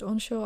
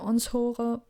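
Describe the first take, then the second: First: The word has an English-style pronunciation. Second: The word has a German-style pronunciation. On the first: The speaker calls it right. "This is an English word" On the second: The speaker calls it wrong. "previously pronounced that onshore, but of course this isn't correct"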